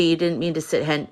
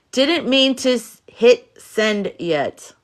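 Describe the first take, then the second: First: "sit hen-" read as typed, garbled; misread typo. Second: "hit send yet" spelled out slowly and clearly; slow, deliberate "hit send yet"; careful correction. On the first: She reads a viewer's typo aloud, garbled. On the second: She corrects the typo for the viewer, slow and clear. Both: Shown as a demonstration. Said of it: "Dyslexic much".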